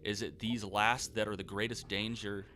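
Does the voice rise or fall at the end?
rise. It ends with a rising, questioning tune.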